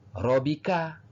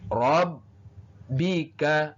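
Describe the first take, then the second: First: The b is single and not held. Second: The b is doubled and held for two beats. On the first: The speaker calls it wrong. "bukan dibaca robika" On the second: The speaker calls it right. "tetapi ditekan"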